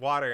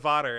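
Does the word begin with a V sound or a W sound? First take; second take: W sound; V sound. First: The word begins with a W sound. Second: The word begins with a V sound. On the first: "you correct it with an actual W" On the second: "You always say W words with a V"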